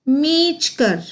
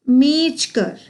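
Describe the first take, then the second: Both takes have the same delivery.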